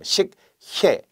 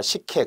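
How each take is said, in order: First: 식혜 split as "sik, hye" with a long pause; staccato syllables. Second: Said in the usual way. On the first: Shown as a demonstration. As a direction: say 식혜 slowly, one syllable at a time, keeping the h. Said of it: "스타카토처럼". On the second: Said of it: "체언은 축약하지 않으므로".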